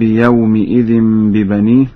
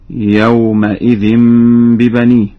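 First: يومئذ said with i after the meem, yawmi-idhin; short i on the meem of يومئذ; standard kasra reading. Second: يومئذ said with a after the meem, yawma-idhin; Warsh fatha reading. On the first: Teacher quotes the verse before correcting to Warsh, kasra on meem. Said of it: "قرأ ورش بفتح الميم". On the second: Teacher demonstrates Warsh's reading, fatha on meem. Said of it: "قرأ ورش بفتح الميم هكذا". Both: Shown as a demonstration.

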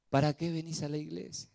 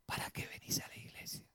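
First: Said in the usual way. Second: Whispered, breathy-free hiss of doubt into the ear; ¿Para qué venís a la iglesia? whispered low and sly; enemy's whisper. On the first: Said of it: "nos susurra". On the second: Retold or imitated. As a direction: whisper it like a tempter at your ear. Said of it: "nos susurra a veces en el oído".

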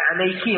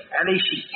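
First: Said in the usual way. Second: "عليشي" with a sh sound for the k; Kashkasha dialect. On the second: Shown as a demonstration. Teacher showing students Kashkasha, "عليشي" with shi for ki. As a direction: say "عليشي", the feminine k turned into "shi". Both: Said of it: "لغة الكشكشة".

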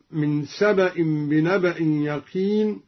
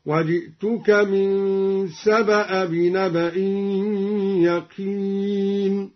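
First: Said in the usual way. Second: "سبأ" as saba-a, no n, chanted; fatha without tanween. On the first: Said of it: "قرأ بفتح الهمزة". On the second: Shown as a demonstration. Teacher demonstrating al-Duri, "سبأ" chanted as saba-a. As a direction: chant slowly, ending "سبأ" on a short open a. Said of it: "قرأ بفتح الهمزة دون تنوين".

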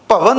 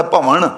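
First: ਭਵਨ with a plain dental n at the end; wrong final n. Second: ਭਵਨ ending in retroflex ṇ, as ਭਵਣ; retroflex final ṇ. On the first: Teacher shows the congregation the misreading, ਭਵਨ with plain n. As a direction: say ਭਵਨ ending in plain n, not retroflex ṇ. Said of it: "ਭਵਨ ਨਹੀਂ ਪੜ੍ਹਨਾ". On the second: Teacher shows the congregation the correct reading, ਭਵਨ with retroflex ṇ. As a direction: curl the tongue back on the last sound of ਭਵਨ. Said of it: "ਨਾਣੇ ਨਾਲ ਪੜ੍ਹਨਾ". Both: Shown as a demonstration.

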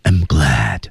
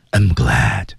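First: Fuller breath, low and breathy. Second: Said in the usual way. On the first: Shown as a demonstration. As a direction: push more air through it. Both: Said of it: "气息再足一点".

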